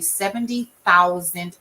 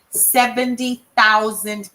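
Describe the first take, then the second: First: It is said plainly, without extra emphasis. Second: It is said with strong, forceful emphasis.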